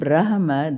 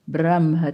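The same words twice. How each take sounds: First: The h sound comes before the m. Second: The h sound comes after the m. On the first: "it is written Brahma, that is the word" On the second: "our traditional pronunciation is switching the ha and the ma"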